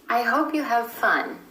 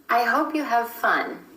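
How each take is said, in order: No difference in how they are said.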